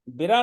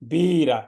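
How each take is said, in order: First: The first vowel is short and light. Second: The first vowel is long and strong. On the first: The speaker calls it wrong. "बिरा नहीं" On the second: The speaker calls it right. "बा पर दीर्घ है तो हमें जोर से कहना है"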